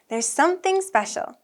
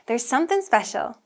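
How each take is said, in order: First: It is said slowly, with the G audible. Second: It is said quickly, with the G blended away. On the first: "When we say it slowly, we can hear it" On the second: "if it's said naturally and quickly"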